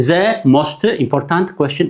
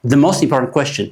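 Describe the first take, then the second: First: "The most important question" dragged out slowly, each letter pronounced; slow separate words. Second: Said in the usual way. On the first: Shown as a demonstration. ("The most important question" ብዝግታ ፊደል ብፊደል) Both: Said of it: "We don't read every letter separately".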